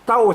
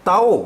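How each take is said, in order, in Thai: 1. พยางค์นี้พูดด้วยเสียงตกพิเศษ 2. พยางค์นี้พูดด้วยเสียงกลางราบ (1) "เสียงโทพิเศษ" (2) "เสียงสามัญ"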